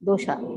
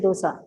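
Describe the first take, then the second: First: The middle consonant is an sh sound. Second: The middle consonant is a plain s sound. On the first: The speaker calls it right. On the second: The speaker calls it wrong.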